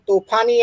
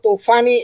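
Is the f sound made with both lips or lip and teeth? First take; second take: both lips; lip and teeth. First: The f is a stop made with both lips. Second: The f is a lip-and-teeth hissing sound. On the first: "તોફાની એમ કહેવાને બદલે" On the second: "એ લોકો તોફાની એમ કહેતા હોય છે ... ફ્રિકેટિવ"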